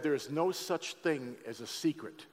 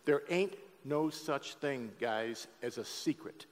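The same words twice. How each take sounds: First: Slow and deliberate, leaning on no; slow stressed quote. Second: Slower and softer, punching ain't; emphatic repeat. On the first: Preacher repeating a saying to his church, slow and weighty. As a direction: lay out each word of "There's no such thing as a secret". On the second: Preacher repeating a saying to his church, softer and emphatic. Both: Shown as a demonstration. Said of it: "Let me say that again".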